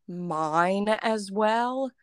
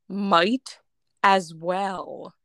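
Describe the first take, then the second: First: The first word ends with an n sound. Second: The first word ends with a clear t sound. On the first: The speaker calls it wrong. "people started saying mine as well" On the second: The speaker calls it right. "the correct way is might as well"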